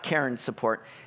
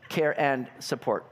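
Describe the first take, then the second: First: Said fast, with 'care and' blended into 'Karen'. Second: Said clearly, with 'care' and 'and' kept apart. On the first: The speaker calls it wrong. "I speak fast. It's not Karen support" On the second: The speaker calls it right. "just so everybody's clear"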